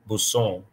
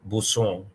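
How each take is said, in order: First: The middle consonant is a hissing s sound. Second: The same.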